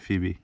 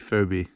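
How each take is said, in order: First: The first vowel sounds like 'ee'. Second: The first vowel sounds like 'oh'. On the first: "Some people say Phoebe" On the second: "I say Phobie"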